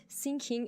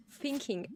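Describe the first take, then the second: First: "thinking" said as "sinking", with an s; wrong th. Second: "thinking" begun with an f sound, as "finking"; corrected th. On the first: Teaching colleagues what not to say, "thinking" with an s. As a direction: put an s at the start of "thinking". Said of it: "No, it's just not". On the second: Teaching colleagues the sound, "thinking" with an f. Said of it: "it is F". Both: Shown as a demonstration.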